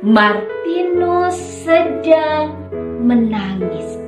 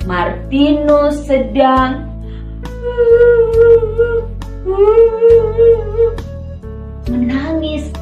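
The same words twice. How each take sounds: First: It is said in a plain, ordinary voice. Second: It is said imitating a crying child's voice.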